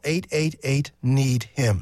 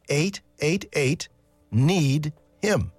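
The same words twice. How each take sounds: First: The number is said at a quicker pace. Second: The number is said at a slower pace.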